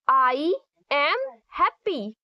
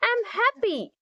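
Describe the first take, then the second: First: The words I am are said separately. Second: The words I am are contracted together. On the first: The speaker calls it wrong. "don't say" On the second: The speaker calls it right. "Say I'm happy. It sounds way better"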